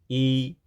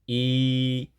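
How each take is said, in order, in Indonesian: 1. Vokalnya diucapkan pendek. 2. Vokalnya diucapkan panjang. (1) "contoh I yang kanan dibaca pendek" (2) "contoh I yang kiri dibaca panjang dua harokat"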